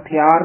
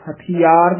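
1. ਨਹੀਂ, 'hath' ਤੋਂ ਬਾਅਦ ਕੋਈ 'i' ਸੁਰ ਨਹੀਂ ਬੋਲੀ ਜਾਂਦੀ। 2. ਹਾਂ, 'hath' ਤੋਂ ਬਾਅਦ ਇੱਕ 'i' ਸੁਰ ਬੋਲੀ ਜਾਂਦੀ ਹੈ। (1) "ਨਹੀਂ ਕਹਿਣਾ" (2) "ਦੀ ਦਿਹਾੜੀ ਨਾਲ ਬੋਲਣਾ ਹੈ"

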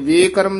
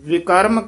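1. ਪਹਿਲਾ ਸਵਰ ਲੰਬੀ 'e' ਧੁਨੀ ਹੈ। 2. ਪਹਿਲਾ ਸਵਰ ਛੋਟੀ 'i' ਧੁਨੀ ਹੈ। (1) "ਵੇਕਰਮ ਨੀ ਕਹਿਣਾ" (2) "ਇਹ ਪਦ ਨੂੰ ਵਿਕਰਮ ਹੀ ਉਚਾਰਨ ਕਰਨਾ"

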